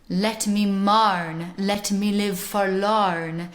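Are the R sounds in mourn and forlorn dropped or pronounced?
pronounced. A rhotic accent with hard, growling R sounds. "a hard rhotic accent with a hard R"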